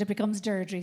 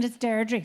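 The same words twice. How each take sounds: First: Said in the usual way. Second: Derry accent. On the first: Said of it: "If you say Deirdre without the accent". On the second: Shown as a demonstration. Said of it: "if you say my name with a Derry accent".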